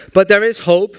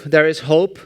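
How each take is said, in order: First: But there is hope, higher and louder; excited. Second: Said in the usual way. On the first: Real, not acted. Speaker rallying the audience, rising excitement. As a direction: announce hope to the crowd with a lift.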